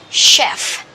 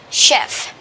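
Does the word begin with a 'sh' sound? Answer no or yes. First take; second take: yes; yes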